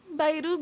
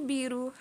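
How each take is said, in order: First: "Bayru" said with a BY first syllable; name as Bayru. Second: "Biru" said with a BEE first syllable; name as Biru. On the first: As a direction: say "Bayru" rhyming the start with "buy". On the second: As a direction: say "Biru" with a long ee at the start. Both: Shown as a demonstration. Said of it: "Pronounce Biru".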